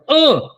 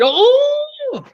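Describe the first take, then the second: First: The word is said with plain intonation. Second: The word is said with exaggerated intonation. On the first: It names a paca, the largest mammal they knew. "a paca seja oh!" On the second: It names an elephant, something gigantic. "É a mesma palavra, só com uma entonação"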